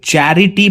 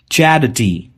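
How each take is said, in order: First: चैरिटी with a full ई before टी; the mistaken चैरिटी, री fully sounded; wrong take. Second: चैरिटी with the ी swallowed, चैर्टी; clipped चैरिटी, reduced to अटी; right take. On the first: Teacher showing students the wrong way, mock wrong. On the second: Teacher giving students the correct form, model. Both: Shown as a demonstration. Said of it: "मैं इसे चैरिटी pronounce नहीं कर रहा".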